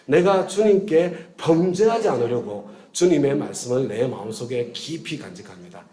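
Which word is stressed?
범죄하지 않으려고. The stress is on 범죄하지 않으려고.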